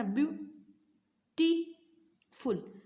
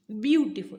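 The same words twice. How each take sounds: First: "beautiful" very slowly, syllable by syllable; split in three parts. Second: Said in the usual way. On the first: Shown as a demonstration. Teacher showing students three syllables, "beautiful" broken into separate parts. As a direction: say "beautiful" as view, टी, फुल with long pauses between. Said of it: "इसको तीन part में आपने पढ़ा". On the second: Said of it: "तो आपने कैसे पढ़ा?".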